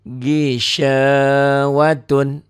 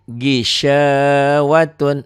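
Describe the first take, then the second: No difference in how they are said.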